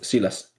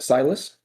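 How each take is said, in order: First: The name is said with Spanish pronunciation. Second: The name is said with English pronunciation. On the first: "like changing it up" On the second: "like in English"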